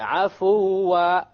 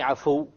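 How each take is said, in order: First: The word ends with a long a vowel. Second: The word ends without a long a vowel. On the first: The speaker calls it right. "You stop with the alif" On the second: The speaker calls it wrong. "You wouldn't say"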